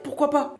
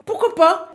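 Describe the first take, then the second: First: Said in the usual way. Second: Emphatic repeat. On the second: Real, not acted. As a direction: say it again, punchier and higher.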